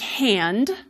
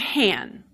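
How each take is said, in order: First: The word ends with a D sound. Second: The word ends without a D sound. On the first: "which ends in N D" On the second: "for some speakers that will become han"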